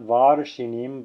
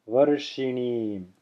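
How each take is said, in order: First: The first vowel is held long, like ah. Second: The first vowel is very short, like uh. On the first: The speaker calls it wrong. "Not varshinim" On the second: The speaker calls it right. "As short as you can possibly make it"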